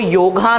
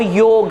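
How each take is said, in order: First: The word ends with a long final 'a' vowel. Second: The word ends on the consonant, no final vowel. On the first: The speaker calls it wrong. "वो योगा नहीं है" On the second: The speaker calls it right. "वो योग है"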